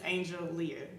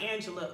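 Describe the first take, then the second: First: The name is said as Angel plus Leah. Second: The name is said as Angela. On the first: The speaker calls it right. "it's really just Angel Leah" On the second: The speaker calls it wrong. "everybody pronounce it differently"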